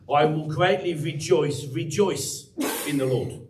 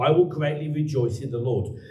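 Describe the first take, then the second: First: Rejoice said twice, slow and drawn out; slow, deliberate doubling of "rejoice"; emphasis on rejoice. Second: Said in the usual way. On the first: Shown as a demonstration. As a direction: stretch each "rejoice" with weight. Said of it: "He puts an emphasis on the word rejoice". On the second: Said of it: "that's how they've translated here".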